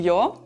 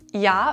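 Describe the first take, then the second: First: It is said in Austrian dialect pronunciation. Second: It is said in standard German pronunciation.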